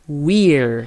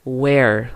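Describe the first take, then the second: First: "we're" said short, like "wir", not like "where"; correct we're. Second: "where" said with an open "wɛr", the mistake to avoid; wrong way. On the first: Teacher modelling the right "we're" for students, clear and careful. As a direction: give "we're" a tight "wir" sound. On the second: Teacher warning students off the wrong "where", a slow demo. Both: Shown as a demonstration. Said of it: "Não vai falar where".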